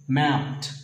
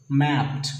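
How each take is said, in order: Both takes have the same delivery.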